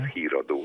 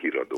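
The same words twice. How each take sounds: First: The first vowel is held long. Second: The first vowel is said short. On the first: The speaker calls it right. "mert az híradó" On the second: The speaker calls it wrong. "és nem híradó"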